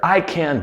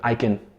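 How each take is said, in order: First: The words are said separately and fully. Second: The words are run together and reduced.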